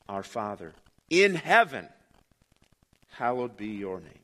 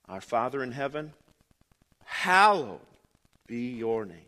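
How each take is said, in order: First: The word 'in' is stressed. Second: The same.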